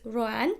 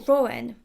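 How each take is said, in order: First: The stress is not on the 'o' sound. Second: The stress falls on the 'o' sound.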